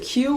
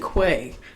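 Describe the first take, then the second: First: It is said like the letter Q. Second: It is said with a 'kw' sound, like 'kway'. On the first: The speaker calls it right. "was it Q" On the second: The speaker calls it wrong. "or was it Quay? ... it's not Quay"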